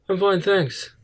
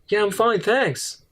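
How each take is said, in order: First: It sounds flat and uninterested. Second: It sounds lively and enthusiastic.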